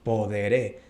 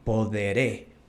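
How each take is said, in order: No difference in how they are said.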